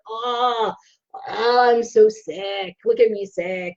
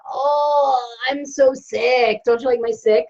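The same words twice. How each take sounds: First: Slow, lower mock-moaning of a sick patient; whiny sick patient. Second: Mock-moaning sick patient, slow and drawn out on so sick; whiny sick patient. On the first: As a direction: play the self-pitying patient lightly, stretching so sick. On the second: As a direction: ham up a self-pitying patient, lightly. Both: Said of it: "That's how I go to the doctor".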